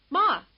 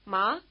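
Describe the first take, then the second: First: "Ma" higher and louder, in glad recognition; "Ma" as an exclamation of recognition; recognizing Ma. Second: Ma as a question to mother; "Ma" as a calling question. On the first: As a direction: greet her with "Ma," knowing it's mother. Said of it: "meaning, perhaps, "It's you, mother". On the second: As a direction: ask "Ma," checking who it is. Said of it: "meaning, "Is that you, mother?". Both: Shown as a demonstration.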